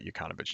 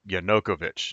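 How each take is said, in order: First: The name begins with the sounds 'Yuka'. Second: The name begins with the sounds 'Yanu'. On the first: The speaker calls it wrong. "not Yukановich" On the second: The speaker calls it right.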